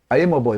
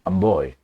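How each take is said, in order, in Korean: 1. 목에서 팽팽하게 만들어지는 소리입니다. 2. 배에서 나오는 깊고 울리는 소리입니다. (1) "목에서 나오죠?" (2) "배에서 하면 I'm boy가 됩니다"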